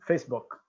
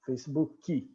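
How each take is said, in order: First: The word ends cleanly on the k sound. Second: An extra vowel sound follows the final k.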